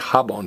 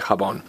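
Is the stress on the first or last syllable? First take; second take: first; last. First: The stress is on the first syllable. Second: The stress is on the last syllable. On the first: The speaker calls it wrong. "don't stress the next to last vowel... Don't say jabón" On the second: The speaker calls it right. "stress me... say jabón"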